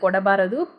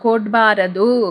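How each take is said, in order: First: The word is said with every vowel kept. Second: The word is said with one vowel dropped. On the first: This is the written form. "ரிட்டன் form" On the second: This is how it is said in everyday speech. "எப்படி சொல்றாங்க?"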